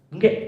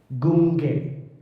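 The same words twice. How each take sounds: First: It is said fast and unclearly. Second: It is said slowly and clearly.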